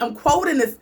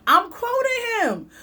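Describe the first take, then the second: First: Said in the usual way. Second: Way up high and drawn out; high slow insistence. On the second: Real, not acted. Repeating that she quotes him, high and slow.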